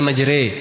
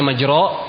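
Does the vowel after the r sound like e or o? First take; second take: e; o. First: The vowel after r leans toward 'e'. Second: The vowel after r is a full open 'o'. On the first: This is the imalah reading of the Hudzail dialect. "dibaca majre" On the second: This is the standard reading without imalah. "harusnya majro"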